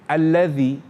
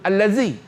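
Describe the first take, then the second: First: The middle consonant is a 'th' sound. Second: The middle consonant is a 'z' sound. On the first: The speaker calls it right. "zal ni, dia di hujung lidah" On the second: The speaker calls it wrong. "Dia tak boleh kita sebut allazi"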